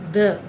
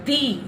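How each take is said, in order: First: The vowel is a short, weak 'uh'. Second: The vowel is a clear 'ee'. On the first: It comes before a word starting with a consonant. "ద అని pronunciation ఏదైతే ఉందో ద, దీన్ని consonants ముందు" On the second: It comes before a word starting with a vowel sound. "Second pronunciation"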